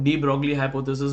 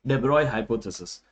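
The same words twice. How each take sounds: First: "डी ब्रॉगली" with a sounded hard g and "lee" ending; common mispronunciation. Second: "de Broglie" said as "de-BROY", with silent g; actual pronunciation. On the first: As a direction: say "डी ब्रॉगली" as spelt, dee BROG-lee. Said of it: "इसे कई लोग ... भी बोलते हैं". ("डी ब्रॉगली" का प्रचलित उच्चारण, "ग" और "ली" साफ़ बोलकर) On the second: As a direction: say "de Broglie" the French way, rhyming with boy. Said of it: "इसका एक्चुअल प्रोनाउंसिएशन है". ("de Broglie" का असली उच्चारण, "डेब्रॉय" जैसा) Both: Shown as a demonstration.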